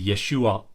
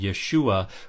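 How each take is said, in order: First: The name ends with a catch in the throat. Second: The name ends openly, with no throat catch. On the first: The speaker calls it right. "It actually ends the vowel that comes before it" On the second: The speaker calls it wrong. "which is being completely dropped if you pronounce it Yeshua"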